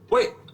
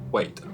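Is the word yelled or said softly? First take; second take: yelled; softly. First: The word is yelled loudly. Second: The word is said softly, defeated.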